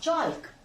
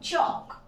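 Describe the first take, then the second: First: The L is sounded in the word. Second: The L is silent in the word. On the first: The speaker calls it wrong. "Not" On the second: The speaker calls it right. "So the pronunciation is चॉक"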